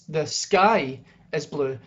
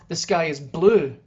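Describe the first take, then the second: First: The word sky carries the emphasis. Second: The word blue carries the emphasis. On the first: Other things could be blue too. "noting that other things could be blue" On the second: The sky could be other colours. "noting that there might be other colours the sky could be"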